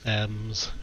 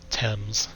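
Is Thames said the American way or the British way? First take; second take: American; British. First: It is said the way a clueless American would. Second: It is said the way people in the UK do. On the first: The speaker calls it wrong. "I can't believe they just pronounced it Thames" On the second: The speaker calls it right. "it's supposed to be uh, pronounced Thames"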